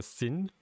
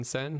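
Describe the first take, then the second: First: "sin" said with a short i as in pin; vowel demo. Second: "sen" said with an open e as in pen; vowel demo. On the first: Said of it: "I think it's more of a sin". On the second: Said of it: "than sen". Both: Shown as a demonstration.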